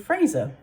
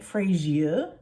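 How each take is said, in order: First: It has no extra 'ee' sound before the ending. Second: It has an extra 'ee' sound before the ending. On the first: The speaker calls it right. "it's actually Fraser" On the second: The speaker calls it wrong. "if you're pronouncing it Frasier, like it's got an I in there"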